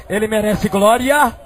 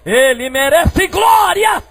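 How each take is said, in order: First: Said in the usual way. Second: High, drawn-out shout of glory; shouted praise. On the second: Real, not acted. Preacher urging the church to give glory, loud high shout. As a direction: shout it slowly to the whole church. Repeats the praise much louder.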